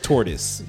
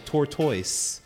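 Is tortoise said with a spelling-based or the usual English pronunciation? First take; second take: usual English; spelling-based. First: The word has the usual English pronunciation. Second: The word is pronounced the way it is spelled. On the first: The speaker calls it right. "the word is tortoise" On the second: The speaker calls it wrong. "you can't say it like that"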